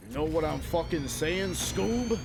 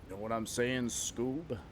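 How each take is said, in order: First: Louder New York mobster, pitch climbing to the end; hammed-up New York mobster demanding agreement. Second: Lightly voiced New York mobster; a hint of New York wiseguy, held back; restrained New York mobster impression. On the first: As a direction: push the New York wiseguy act, rising on the name. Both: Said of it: "like a New York mobster".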